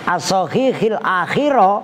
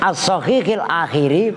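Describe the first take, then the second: First: The last word ends with an a vowel. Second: The last word ends with an i vowel. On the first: The last word is an object-like complement. "dibaca nasab sebagai maf'ul" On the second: The last word is a possessive complement.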